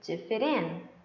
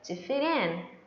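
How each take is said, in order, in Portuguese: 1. O t se liga ao 'in' e soa como r. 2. O t se liga ao 'in' e soa como r.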